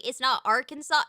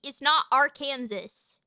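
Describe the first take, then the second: First: "Arkansas" ending in saw, silent final S; Arkansas as AR-kən-saw. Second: "Arkansas" said like Kansas with Ar in front. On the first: Checking the state's name, "Arkansas" said ending in saw. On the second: Rejecting the wrong reading, "Arkansas" said as ar-KANSAS. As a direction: say "Arkansas" as ar-KAN-zus. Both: Shown as a demonstration. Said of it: "You don't pronounce it Arkansas".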